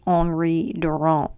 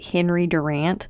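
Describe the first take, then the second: First: The name is said with a French accent. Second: The name is said with an American accent. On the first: The speaker calls it right. "I'm pretty sure it's Henri Durant" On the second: The speaker calls it wrong. "if I were really going to play up the American accent"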